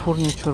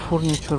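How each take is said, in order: First: The middle consonant is a ch sound. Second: The middle consonant is a ch sound.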